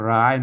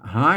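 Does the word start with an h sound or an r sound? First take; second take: r sound; h sound. First: The word starts with an r sound. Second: The word starts with an h sound. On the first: The speaker calls it wrong. "บางคนก็อ่านว่าร้าย" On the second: The speaker calls it right. "มันต้องอ่านหาย"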